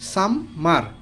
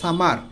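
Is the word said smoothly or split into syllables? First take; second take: split; smoothly. First: The word is split into two separate syllables. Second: The word is said smoothly as one unit.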